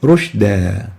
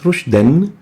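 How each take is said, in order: First: The word ends with a long a vowel. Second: The word ends with an n sound. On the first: The reciter stops on this word. "upon stopping on that tanween, instead of saying rushdan, we say rushda" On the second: The reciter continues without stopping. "The tanween adds a noon after the dal to be pronounced rushdan"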